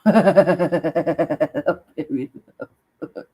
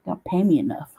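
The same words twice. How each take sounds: First: Very slow, stretched out through laughter; laughing, very slow. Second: Said in the usual way. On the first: Real, not acted. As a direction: drag it out while laughing.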